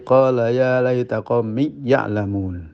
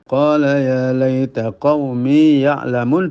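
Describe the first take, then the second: First: The vowel in qaumi merges into the next word. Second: The long vowel in qaumi is held long. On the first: The speaker calls it wrong. "Tidak boleh diidghamkan" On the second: The speaker calls it right. "harus dipelihara panjangnya"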